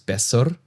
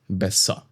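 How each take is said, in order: First: The final R is pronounced strongly. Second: The final R is softened toward a vowel. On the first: The speaker calls it wrong. "Not besser" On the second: The speaker calls it right. "but besser"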